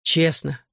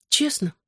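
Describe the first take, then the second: First: Gloomy «Честно». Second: «Честно?» asked in a high rising voice; girl asks «Честно?» hopefully, pitch jumping up; questioning high «Честно?». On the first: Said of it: "всё тем же угрюмым тоном". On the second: Girl checks if he means it, «Честно?» asked high. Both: A narrator's reading.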